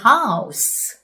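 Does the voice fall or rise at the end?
fall. The voice falls at the end. The speaker calls it right. "이렇게 내려요"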